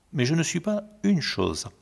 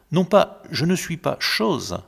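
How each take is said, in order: First: "une" singled out and weighted; stress on une. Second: "pas" pressed high and loud, "chose" with no article; stress on pas. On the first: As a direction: hit the article "une" in "pas une chose". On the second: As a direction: lean on "pas" in "je ne suis pas chose". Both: Shown as a demonstration.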